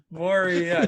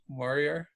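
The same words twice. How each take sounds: First: Moria stretched into three syllables, mo-RI-a, rising. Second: Moria said in two syllables, MOR-ya. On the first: Arguing with friend over syllables, drawn-out three-beat Moria. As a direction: say Moria slowly as mo-RI-a, three clear beats. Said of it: "That's at least three syllables". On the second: Friend insisting Moria has two syllables, short two-beat Moria. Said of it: "It's two syllables". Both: Shown as a demonstration.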